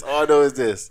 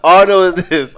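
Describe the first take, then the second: First: Said in the usual way. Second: Laughing. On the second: Real, not acted.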